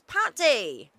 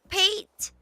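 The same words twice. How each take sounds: First: The name is said like the food pâté. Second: The name is not said like the food. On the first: This is how the speaker calls him. "Like the food. It's much better" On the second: This is how someone else calls him. "you call him Pate?"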